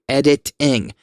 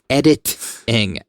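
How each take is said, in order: Both takes have the same delivery.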